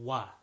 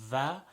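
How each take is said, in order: First: It starts with a rounded W-like sound. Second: It starts with a buzzing V-like sound. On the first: The speaker calls it right. "the impartial uh, meeting of both lips" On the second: The speaker calls it wrong. "most commonly people say"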